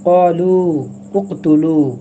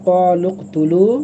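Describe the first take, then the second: First: The two words are said separately, with a vowel. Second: The two words run together without a break.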